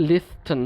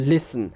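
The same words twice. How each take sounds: First: Slow লিস্টেন with an audible t; T pronounced. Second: লিসেন, listen with no t; silent T. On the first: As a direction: sound the t between s and n in লিস্টেন. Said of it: "যেমন লিস্টেন যেটা বলছি". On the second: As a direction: drop the t, straight from s to n in লিসেন. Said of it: "দেখেন লিসেন". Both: Shown as a demonstration.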